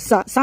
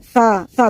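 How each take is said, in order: First: The consonant is a hissing s sound. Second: The consonant is a soft th sound. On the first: The speaker calls it wrong. "अगर हमारी जबान मुंह के अंदर रहेगी तो सा अदा होगा। सा सा नहीं पढ़ना हमें" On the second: The speaker calls it right. "जबान मुंह के दांतों से बाहर निकालनी है"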